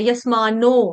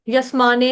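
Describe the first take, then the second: First: The word ends with an 'o' vowel. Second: The word ends with an 'e' vowel. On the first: The speaker calls it right. "नो है" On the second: The speaker calls it wrong. "यस्माने नहीं है"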